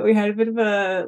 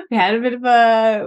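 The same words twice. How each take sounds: First: Said in the usual way. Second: Words bubbling with laughter; giggly and a bit louder; laughing. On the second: Real, not acted. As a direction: push the line out through a laugh. Laughing while retelling family story.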